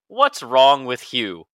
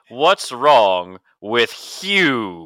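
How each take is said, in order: First: It is said in his normal voice. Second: It is said in a Stewie-like voice.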